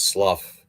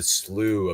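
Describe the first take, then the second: First: The word rhymes with 'enough'. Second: The word does not rhyme with 'enough'. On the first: This is how the speaker always assumed it was said. "I always thought it was slough. I mean, think about it. Enough" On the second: This is the usual American pronunciation. "as we pronounce it here in the states"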